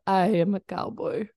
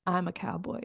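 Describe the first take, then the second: First: Put-on second stab at a Russian accent; careful mock-Russian accent; Stalin accent. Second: Lightly attempted Russian accent, softer; a hint of Russian accent; Stalin accent attempt. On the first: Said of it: "or however an accent would be for Stalin". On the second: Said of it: "if I think of Stalin, I bet he was like".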